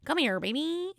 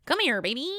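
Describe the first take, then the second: First: Lightly voiced Kermit, higher; a hint of the Kermit croon. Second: Kermit voice. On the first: Shown as a demonstration. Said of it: "I'm just gonna do the, the usual". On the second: Retold or imitated. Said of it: "and it's like".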